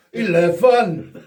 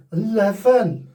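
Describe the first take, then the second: First: "Eleven" drawn out slowly as "ilevan", Scottish style; Scottish accent. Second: "Eleven" said high and falling in a Welsh lilt; Welsh accent. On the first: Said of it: "We try Scottish accent then". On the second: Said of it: "Do we do it in a Welsh accent". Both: Pretend.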